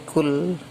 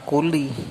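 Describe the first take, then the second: First: The word ends on the consonant l. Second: The word ends with an added i vowel. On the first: The speaker calls it right. "berhenti kul" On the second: The speaker calls it wrong. "jangan dibaca kuli"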